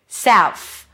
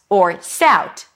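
First: The word ends with an F sound. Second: The word ends with a T sound. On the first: "or an F" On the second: "just a T"

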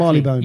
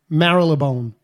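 First: It is pronounced in a British way. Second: It is pronounced in an American way. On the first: The speaker calls it right. "instead of Marylebone" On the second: The speaker calls it wrong. "how Americans say Marylebone"

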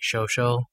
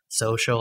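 First: The middle consonant is an SH sound. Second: The middle consonant is an S sound. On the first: "I sometimes pronounce like an SH sound for what is like an S sound" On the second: "instead of social"

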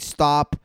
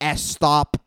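First: It is said in a standard English accent. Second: It is said in a Spanish-influenced English accent. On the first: The speaker calls it right. "instead of saying stop" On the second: The speaker calls it wrong. "you guys say stop"

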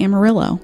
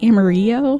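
First: The word has an English-style pronunciation. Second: The word has a Spanish-style pronunciation. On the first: The speaker calls it wrong. "has a really hard time saying Amarillo" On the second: The speaker calls it right. "it should be Amarillo"

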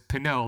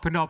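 First: The name sounds like the wine Pinot. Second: The name does not sound like Pinot. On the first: The speaker calls it right. "like the wine" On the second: The speaker calls it wrong. "that's not how you pronounce it"

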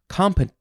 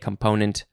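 First: The stress is on the first syllable. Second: The stress is on the second syllable. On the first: The speaker calls it wrong. "some people also emphasize the first syllable" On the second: The speaker calls it right. "you got to say component"

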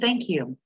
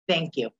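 First: The voice sounds warm and grateful. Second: The voice sounds curt and resentful. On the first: The speaker is sincerely thankful. "those two same words, different tone" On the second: The speaker is still upset and not really thankful. "you're upset with somebody and they do something nice for you, and instead of being gracious, you're like"

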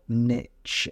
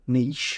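First: It is said the American way. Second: It is said the British way.

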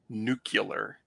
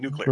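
First: The word ends in 'cular', with an extra syllable. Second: The word ends in 'clear', with no extra syllable. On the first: The speaker calls it wrong. "when people say nuclear, which is so hard to say" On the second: The speaker calls it right. "it rolls right off the tongue"

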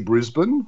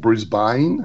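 First: It is said with an Australian accent. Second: It is said with an American accent.

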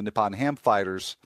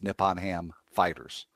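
First: The stress falls on the word Ham. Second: The stress falls on the word Fighters. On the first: It names people who fight ham. The speaker calls it wrong. "I put the emphasis on ham in the wrong place there" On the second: It names the team owned by Nippon Ham. The speaker calls it right. "It's Nippon Ham Fighters, not people fighting ham"

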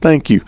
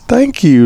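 First: It sounds curt and dismissive. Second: It sounds warm and inviting.

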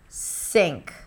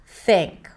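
First: The word starts with an S sound. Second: The word starts with a TH sound. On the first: The speaker calls it wrong. "you're pronouncing an S sound instead of a TH sound" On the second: The speaker calls it right. "make sure that the tip of the tongue comes out"

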